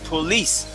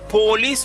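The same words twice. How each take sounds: First: The stress is on the second syllable. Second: The stress is on the first syllable. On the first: The speaker calls it right. "tu es supposé dire police" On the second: The speaker calls it wrong. "si tu dis police, on met accent sur po"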